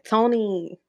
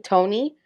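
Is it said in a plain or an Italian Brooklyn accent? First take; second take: Italian Brooklyn; plain. First: It is said in an Italian Brooklyn accent. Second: It is said in a plain accent.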